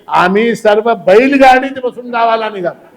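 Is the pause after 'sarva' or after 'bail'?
after sarva. There is a pause after 'sarva'.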